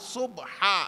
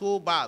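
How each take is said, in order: First: The word is said with an h sound. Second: The word is said without an h sound. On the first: The speaker calls it right. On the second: The speaker calls it wrong.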